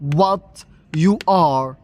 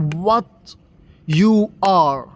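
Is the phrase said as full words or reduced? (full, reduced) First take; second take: full; full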